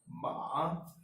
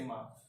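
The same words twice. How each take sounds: First: The pitch falls and then rises. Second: It is short and light, with no tone. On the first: It means horse. "it first falls and then rises" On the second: It marks a question. "the neutral tone, which doesn't have any tone on top of it"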